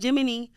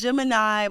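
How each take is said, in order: First: The word ends with an 'ee' sound. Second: The word ends with an 'eye' sound. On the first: The speaker calls it wrong. "People call it Jiminy Jen sometimes" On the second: The speaker calls it right. "No, it's Gemini"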